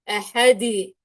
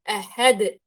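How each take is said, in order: First: The final d bounce is drawn out long. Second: The final d bounce is short. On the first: The speaker calls it wrong. "إني أمط في الصوت تماما وأطول عن حده" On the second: The speaker calls it right. "بهذه الطريقة"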